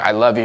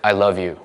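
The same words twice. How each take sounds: First: It is said in a forceful, commanding way. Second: It is said in a gentle, tender way. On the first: "choking love into a person" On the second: "But not like"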